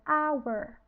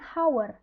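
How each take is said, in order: First: The word begins with a vowel sound. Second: The word begins with an h sound. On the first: The speaker calls it right. "hour ini bunyinya vokal" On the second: The speaker calls it wrong. "walaupun dia diawali dengan huruf H, kita bacanya itu bukan hour"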